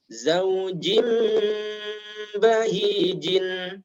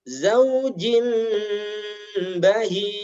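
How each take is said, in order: First: The phrase ends with a vowel and n. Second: The phrase ends on a bare consonant. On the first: It is read as written, continuing on. "dibaca sesuai dengan tulisan, yaitu harokat akhir dibaca" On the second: The reading stops at this word. "dibaca waqaf"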